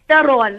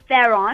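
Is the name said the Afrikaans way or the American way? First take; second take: Afrikaans; American. First: The name is said with an Afrikaans pronunciation. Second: The name is said with an American pronunciation. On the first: The speaker calls it right. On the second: The speaker calls it wrong. "not Theron"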